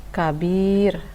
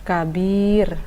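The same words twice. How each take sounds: The two takes are said the same way.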